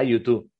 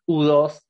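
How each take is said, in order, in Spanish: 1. Se dice con los nombres de letras y números en inglés. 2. Se lee con los nombres de letras y números en español.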